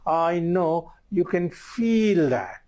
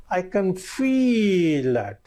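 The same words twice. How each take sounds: First: Higher and slow, "feel" drawn out and falling; matching stress on feel. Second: Higher and slow, leaning hard on "feel"; "I can feel that" with "feel" stretched and falling; stress on feel. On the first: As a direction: mirror the stress on "feel", slowly. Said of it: "you can use the same tonality". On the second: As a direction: draw out "feel" and let it fall. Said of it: "Notice the tonality". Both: Shown as a demonstration.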